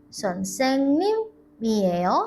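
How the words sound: It is said with a question ending. It asks whether someone is a teacher.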